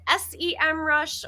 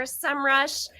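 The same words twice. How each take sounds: First: "S E M Rush" with S, E, M said as three separate letters; spelled-out pronunciation. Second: "SEMrush" with SEM as one syllable, like "sem"; one-word pronunciation. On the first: Host reading a viewer's name question, "S E M Rush" letter by letter. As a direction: spell out the first part of "S E M Rush", then say Rush. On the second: Host offering the other option, "SEMrush" said as one word. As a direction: blend the letters of "SEMrush" into a single word. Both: Shown as a demonstration. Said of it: "is it pronounced".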